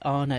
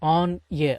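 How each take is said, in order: First: The two words run together as one. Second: The two words are said separately.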